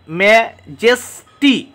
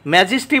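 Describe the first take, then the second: First: "ম্যাজেস্টি" broken into three spaced beats; separate syllables. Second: Said in the usual way. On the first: Shown as a demonstration. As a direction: pause between each syllable of "ম্যাজেস্টি". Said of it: "আলাদা আলাদাভাবে syllable রয়েছে". ("ম্যাজেস্টি" আলাদা আলাদা সিলেবলে) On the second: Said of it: "আলাদা আলাদাভাবে syllable".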